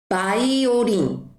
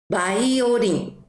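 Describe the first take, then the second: The two takes are said the same way.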